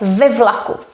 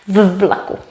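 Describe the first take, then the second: First: The preposition has a vowel before the noun. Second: The preposition is a bare consonant before the noun. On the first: The speaker calls it right. "then we also automatically have to make it ve" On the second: The speaker calls it wrong. "so that it doesn't sound too strange"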